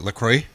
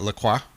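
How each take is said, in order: First: The name is said in a plain English way. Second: The name is said with a French flavor. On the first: This is how people commonly but mistakenly say it. The speaker calls it wrong. "They say like idiots say La Croix" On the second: This is how the company wants it said. The speaker calls it right. "it's got like a little bit of a Frenchness"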